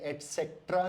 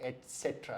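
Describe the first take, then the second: First: एटसेट्रा with an extra k, ek-set-ra; एटसेट्रा said eks-etra with a k sound; एटसेट्रा as ek-setra; wrong pronunciation. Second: एटसेट्रा said et-set-ra, no k; एटसेट्रा starting et, no k sound; एटसेट्रा as et-cetera; correct pronunciation. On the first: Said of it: "नहीं है". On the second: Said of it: "ये एटसेट्रा है". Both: Shown as a demonstration.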